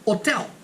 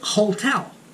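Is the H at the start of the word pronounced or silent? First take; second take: silent; pronounced. First: The word begins with a silent H. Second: The word begins with an audible H sound. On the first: The speaker calls it right. "It's hotel" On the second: The speaker calls it wrong. "We don't say hotel"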